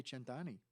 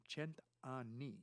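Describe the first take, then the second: First: "cent'anni" with one short N; single N, mispronounced. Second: "cent anni" slow with a long double N; two N's pronounced. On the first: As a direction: skip quickly over the N in "cent'anni". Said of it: "you're saying a hundred assholes". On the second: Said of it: "two N's". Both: Shown as a demonstration.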